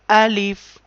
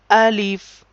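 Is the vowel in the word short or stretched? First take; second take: short; short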